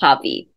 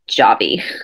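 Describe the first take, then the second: First: The name is said with a Spanish pronunciation. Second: The name is said with an English pronunciation. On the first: The speaker calls it right. "but that's Javi" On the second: The speaker calls it wrong. "not Javi"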